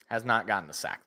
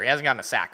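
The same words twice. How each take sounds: First: "not" split off and leaned on; "Has not" spelled out, weight on "not"; stress on NOT. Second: Said in the usual way. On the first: Shown as a demonstration. Streamer correcting himself, hitting "not".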